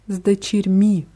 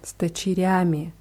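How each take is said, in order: First: The word ends with a short -mi ending. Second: The word ends with a full -yami ending. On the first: This is a commonly heard alternative form. "Man hört aber auch oft sdechirmi, also wie sditmi" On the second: This is the form the rule predicts. "nach der Regel würde es heißen с дочерями"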